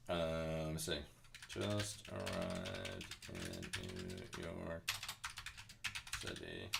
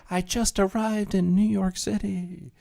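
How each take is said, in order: First: Low, slow murmur while searching; half-whispered, reading under the breath; muttered to self. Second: High, slow breathless tourist voice; imitating excited tourist. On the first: Real, not acted. Streamer muttering the clip title to herself, quiet and slow. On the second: Streamer mimics woman arriving in Times Square, high and gushing. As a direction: gush it like a starstruck visitor. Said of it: "She's like".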